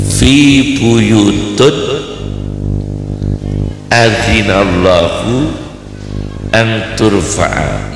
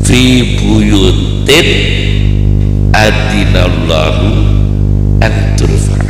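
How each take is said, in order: First: The word after 'fi' ends in 'un'. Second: The word after 'fi' ends in 'in'. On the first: The speaker calls it wrong. "dibaca rafa. Rafa kan domah" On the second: The speaker calls it right. "Yang benar"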